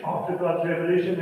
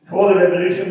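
First: Said in the usual way. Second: Before punched loud with a rising end; stress on before. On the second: Shown as a demonstration. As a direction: hit the word Before hard, voice rising on revolution. Contrasting before and after revolution.

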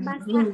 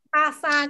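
First: "Basa" with a plain voiced b, no puff; unaspirated, low-pitched "Basa"; no aspiration. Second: "basa" opened with a puffed p sound, like "pasa"; breath-released p in place of the b in "basa"; aspirated first sound. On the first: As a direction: say "Basa" normally, lower, without releasing air on the B. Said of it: "không có bật hơi". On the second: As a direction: release a burst of air at the start of "basa". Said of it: "basa kia là bật hơi". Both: Shown as a demonstration.

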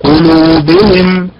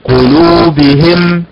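First: قلوبهم very slow, stress on the باء; teacher's slow correct قلوبهم. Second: قلوبهم very slow, stress moved onto the هاء; the common error, stress on the هاء; wrong stress. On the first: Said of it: "الأداء المستقيم هكذا". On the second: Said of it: "ينبر على حركة الهاء بدلا منها فيقول". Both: Shown as a demonstration.

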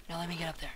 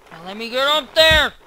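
First: Barely audible mutter to himself. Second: Said aloud. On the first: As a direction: say it under your breath, much softer. Muttered to himself, then repeated. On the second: Repeated aloud while climbing. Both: Real, not acted.

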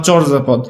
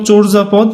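First: চরজা with an open "aw" in the first syllable; open-vowel variant. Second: চোরজা with a rounded o in the first syllable; o-sound pronunciation. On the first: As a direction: say চরজা as "chawr-ja". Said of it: "দেখো এটা কিন্তু দুইভাবে হয়". (চরজা-তে খোলা অ উচ্চারণ) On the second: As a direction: say চোরজা as "chor-ja", closed o. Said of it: "এইভাবে লিখতে পারো". (চোরজা-তে ও-কারের উচ্চারণ) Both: Shown as a demonstration.

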